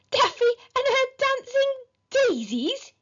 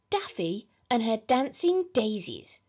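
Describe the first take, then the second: First: High, loud incredulous squawk; outraged question, pitched way up; spluttered disbelief. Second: Measured, restrained voice through a false smile; strained politeness, held back; forced out reluctantly. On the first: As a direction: splutter it in shocked astonishment. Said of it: "he spluttered". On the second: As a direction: squeeze the words out unwillingly. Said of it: "could barely force the grisly words out of his mouth". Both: A narrator's reading.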